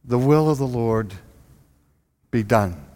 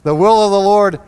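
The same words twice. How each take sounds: First: Resigned, pious. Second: "The will of the Lord" louder and higher, hitting "will"; preacher insisting on "The will of the Lord", stressing "will"; emphatic declaration. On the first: Retold or imitated. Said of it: "And we said". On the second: Shown as a demonstration. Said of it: "Of course the will of the Lord was going to be done".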